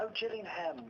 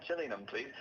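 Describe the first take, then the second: First: High-pitched "Gillingham" ending in a full HAM; mock realisation, "Gillingham" with HAM sounded out; every syllable pronounced. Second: GILLINGHAM with the last syllable swallowed, "JILLY-num"; reduced syllables. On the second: Retold or imitated. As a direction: say "Gillingham" quickly, ham reduced to "um". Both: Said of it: "not supposed to pronounce all of the syllables".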